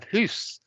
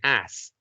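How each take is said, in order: First: The vowel rhymes with moose. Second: The vowel rhymes with ass. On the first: It is linked today with some Scottish speakers. "does it rhyme with moose? So you have hoose" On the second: It is used by some speakers in one region. "does it even rhyme with ass?"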